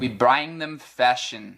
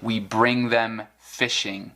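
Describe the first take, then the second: First: It is said with a Scottish accent. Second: It is said with an American accent.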